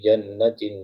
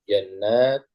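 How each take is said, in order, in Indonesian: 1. Vokal setelah n ganda itu pendek. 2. Vokal setelah n ganda itu panjang. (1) "Tapi kalau dibaca pendek" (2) "Kalau panjang jannat surga surga"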